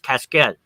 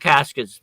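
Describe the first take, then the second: First: It is pronounced the French way, as casquette. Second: It is pronounced the English way, as casket. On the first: "the French pronunciation is casquette" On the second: "we call them caskets"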